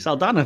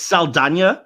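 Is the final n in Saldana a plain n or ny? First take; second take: plain n; ny. First: The last n is a plain n sound. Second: The last n is a ny sound. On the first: This is how the name was long said in Britain. The speaker calls it wrong. "the British, were the ignorant ones that were like Zoe Saldana" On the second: This is how the name is said in America. The speaker calls it right. "every American's like, it's Saldana"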